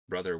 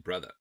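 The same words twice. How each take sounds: First: The final R sound is clearly pronounced. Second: The final R sound is dropped.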